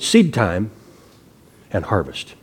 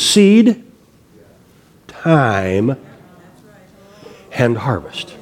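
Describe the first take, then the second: First: Seed and time are run together as one word. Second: Seed and time are separated, time drawn out. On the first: The speaker calls it wrong. "a lot of people pronounce it" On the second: The speaker calls it right. "if you pronounce it correctly"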